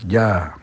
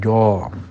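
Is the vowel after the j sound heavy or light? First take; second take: light; heavy. First: The vowel is light and open, like a. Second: The vowel is heavy and rounded, like o. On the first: The speaker calls it right. "istifal, ja" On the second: The speaker calls it wrong. "tidak jo"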